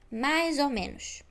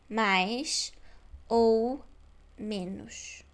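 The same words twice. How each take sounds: First: The words run together like one word. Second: Each word is said separately, one by one. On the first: The speaker calls it right. "duas palavras vão parecer apenas uma" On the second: The speaker calls it wrong. "Palavra por palavra"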